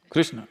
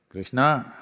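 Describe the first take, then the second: First: The final syllable is cut off. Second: The final syllable is pronounced in full.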